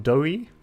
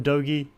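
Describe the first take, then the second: First: The name is said without a G sound. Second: The name is said with a G sound.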